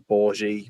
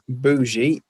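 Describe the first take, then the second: First: The word is said with an R sound. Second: The word is said without an R sound. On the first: "whether you got the U, the R in there or not" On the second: "bougie is how I pronounce it"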